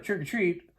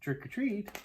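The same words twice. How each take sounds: First: It is said a little louder. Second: It is said very softly.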